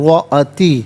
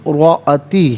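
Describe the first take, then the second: Both takes have the same delivery.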